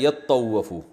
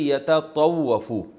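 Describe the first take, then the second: First: The two t sounds merge into one. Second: Two separate t syllables are pronounced. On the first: This is how it is actually recited. "को पढ़ा जाता है" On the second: This is the underlying original form. "असल में था ये"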